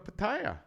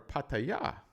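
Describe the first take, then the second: First: The name is said the common anglicized way. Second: The name is said the local native way.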